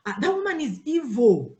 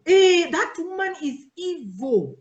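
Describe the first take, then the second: First: Said in the usual way. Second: Higher, louder, slow dramatic gossip; gossip's warning. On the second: Retold or imitated. Church gossip warning the newcomer, dramatic and loud. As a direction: drag it out like a scandalized gossip. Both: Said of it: "vile rumor spread".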